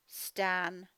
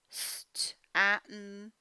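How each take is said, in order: First: Said in the usual way. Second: St-atten split into slow sounds; segmented decoding. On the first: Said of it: "blended after sounding out". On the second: Shown as a demonstration. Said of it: "sounding out the name".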